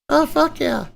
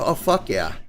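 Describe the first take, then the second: First: It is said in a put-on girl's voice. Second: It is said in his normal voice.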